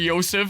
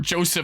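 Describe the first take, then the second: First: The name begins with a Y sound. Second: The name begins with a J sound. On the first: The speaker calls it wrong. "I see that, and I want to say Yosef" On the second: The speaker calls it right. "I believe in game that it's pronounced Joseph"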